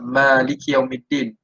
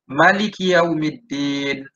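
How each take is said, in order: First: The first vowel 'ma' is drawn out long. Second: The first vowel 'ma' is kept short. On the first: This is the reading usually recited. "Ma tu dua harakat" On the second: This is another accepted reading. "tidak memanjangkan uh, sebutan ma"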